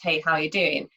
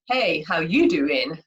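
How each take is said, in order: First: It sounds like a plain, friendly everyday greeting. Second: It sounds drawn out, suggestive and flirtatious. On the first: It is just an ordinary hello. "it could mean, you know, just" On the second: The speaker is showing romantic interest. "that kind of means something completely different, as we all know from Joey and Friends"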